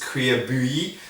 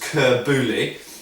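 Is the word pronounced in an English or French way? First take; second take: French; English. First: It is pronounced with French-style sounds. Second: It is pronounced with English-style sounds. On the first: "in French I believe it's" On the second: "English people will probably read it as"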